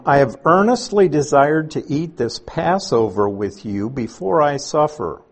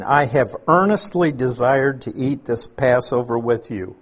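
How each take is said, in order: First: Earnestly leaned on with feeling; stress on earnestly. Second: Earnestly slowed and stressed, desired following. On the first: Preacher reading Jesus' words to his apostles, earnestly. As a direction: let earnestly carry the weight. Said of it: "this is an intensely emotional event". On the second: Preacher repeating the verse to show its feeling, stressed. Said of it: "because of the words "earnestly desired". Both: Shown as a demonstration.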